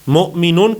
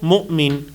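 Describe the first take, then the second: First: The word ends with an '-un' syllable. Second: The word stops on the final consonant.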